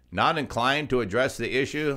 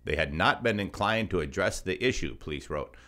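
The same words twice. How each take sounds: First: "Not" stressed, disbelieving question; incredulous repeat. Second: Said in the usual way. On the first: Real, not acted.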